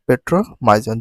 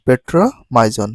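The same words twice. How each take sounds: No difference in how they are said.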